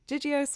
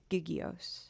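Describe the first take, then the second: First: The first G is said as a soft sound. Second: The first G is said as a hard sound.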